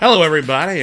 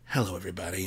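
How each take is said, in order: First: The greeting is loud and energetic. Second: The greeting is soft and sultry. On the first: "Bring it back a little bit" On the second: "No, that's too bedroomy"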